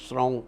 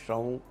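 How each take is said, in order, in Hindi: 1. अक्षर की शुरुआत shr ध्वनि से होती है। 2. अक्षर की शुरुआत एक साधारण s ध्वनि से होती है। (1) "अगर आप श्रांग श्रीं श्रौं कह देंगे तो वो केतु का मंत्र हो जाएगा" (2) "यहाँ श्रा और सा का थोड़ा ध्यान रखिएगा"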